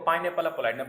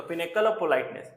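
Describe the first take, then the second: First: "pineapple" said in place of pinnacle; comic mispronunciation. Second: Said in the usual way. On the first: Shown as a demonstration. Teacher shows students a malapropism, comic mispronunciation with "pineapple". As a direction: say "pineapple" clearly as the malaprop slip. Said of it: "pronunciation में मजाक कर देना". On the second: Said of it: "पाइनएप्पल बोल दिया गया".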